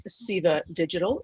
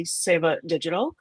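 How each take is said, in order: First: Upstate New York accent, "Seva" said SEE-vuh; "Seva Digital" in upstate New York accent, long ee, SEE-vuh. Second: "Seva Digital" said correctly, SAY-vuh; "Seva" with a long a, SAY-vuh, not SEE-vuh; correct pronunciation. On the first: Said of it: "That's my upstate New York accent". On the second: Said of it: "or pronounced more correctly". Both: Shown as a demonstration.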